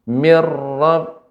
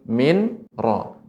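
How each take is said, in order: First: The n disappears and merges into a doubled r. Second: The n is pronounced separately before the r. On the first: "Dilebur, nunnya hilang jadi ra" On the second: "nun mati bertemu dengan ra"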